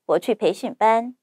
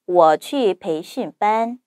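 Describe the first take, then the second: First: It is spoken quickly. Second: It is spoken slowly. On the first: "세 번째, 빠르게" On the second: "첫 번째, 천천히"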